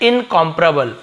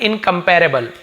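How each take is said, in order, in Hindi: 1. यह अमेरिकन अंग्रेज़ी एक्सेंट में बोला गया है। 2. यह भारतीय अंग्रेज़ी एक्सेंट में बोला गया है। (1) "अमेरिकन एक्सेंट में कैसे करते हैं" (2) "इसे हम लोग कैसे बोलते हैं जो इंडियन है"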